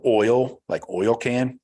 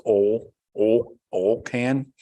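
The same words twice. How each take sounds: First: Said in the usual way. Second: "oil" said as "ole", one long o; Southern "oil" rhyming with "hole"; wife's Southern pronunciation. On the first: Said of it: "She says "oil, oil, oil can". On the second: Retold or imitated. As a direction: drop the i from "oil", making it "ole". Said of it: "She says".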